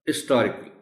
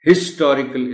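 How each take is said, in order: First: The word starts without any h sound. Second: The word starts with an audible h sound. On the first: The speaker calls it right. "एच silent है" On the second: The speaker calls it wrong. "इसको नहीं बोल सकते आप"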